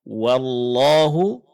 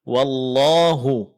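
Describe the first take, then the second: No difference in how they are said.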